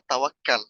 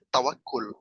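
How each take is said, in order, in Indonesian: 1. Suku kata terakhir memakai vokal a. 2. Suku kata terakhir memakai vokal u. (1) "dari sisi bahasa Indonesianya, maka yang benar itu adalah tawakal" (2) "saya sedang membahas tentang bahasa Arabnya, maka yang benar itu adalah tawakul"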